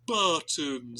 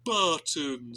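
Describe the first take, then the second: First: The word sounds sad and gloomy. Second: The same.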